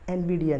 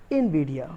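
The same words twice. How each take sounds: First: Nvidia opening with "en"; wrong pronunciation. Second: Nvidia opening with "in"; correct pronunciation. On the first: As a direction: say Nvidia as "en-VID-ia". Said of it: "Nvidia नहीं". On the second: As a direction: model Nvidia as "in-VID-ia", falling. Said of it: "correct pronunciation would be". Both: Shown as a demonstration.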